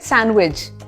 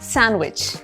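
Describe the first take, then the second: First: The word ends with a J sound. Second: The word ends with a CH sound. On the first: "ज भी" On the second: "च भी"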